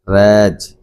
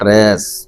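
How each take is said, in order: First: The final consonant is a voiced z sound. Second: The final consonant is a voiceless s sound. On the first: The speaker calls it right. "इस एस का pronunciation यहाँ पर जा है" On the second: The speaker calls it wrong. "Not रेस। ऐसा नहीं पढ़ा जाता"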